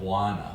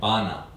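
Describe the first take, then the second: First: A W sound follows the first B. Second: No W sound follows the first B. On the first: This is how people there say it. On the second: This is how the speaker would say it. "the W sound mm. doesn't fit in that word. I'd say oh"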